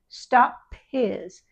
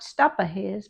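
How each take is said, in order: First: The p stops with no added vowel. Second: An extra vowel follows the p. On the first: The speaker calls it right. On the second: The speaker calls it wrong.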